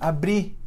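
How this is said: The final R is dropped entirely. "não tem R mais"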